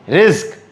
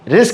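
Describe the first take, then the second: First: The word has a z sound and ends in q. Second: The word has an s sound and ends in k. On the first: The speaker calls it right. "रिस्क जेड के, जेड क्यू, आर आई जेड क्यू" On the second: The speaker calls it wrong. "आर आई एस के नहीं"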